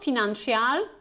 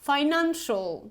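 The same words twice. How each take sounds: First: The ending is a drawn-out 'shee-al' sound. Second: The ending is one short 'shal' syllable. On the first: The speaker calls it wrong. "So it's not financial" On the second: The speaker calls it right. "it's financial"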